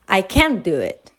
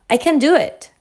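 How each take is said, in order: First: The stress falls on the word can. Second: The stress falls on the verb do.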